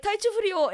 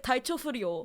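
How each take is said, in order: First: "Taichou furyo" pitched higher, stressed on "Taichou"; Japanese phrase, stressed. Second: "Taichou furyo" said plainly in Japanese; Japanese phrase. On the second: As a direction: say "Taichou furyo" as the doctor did, flat. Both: Shown as a demonstration. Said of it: "the way he said it in Japanese is".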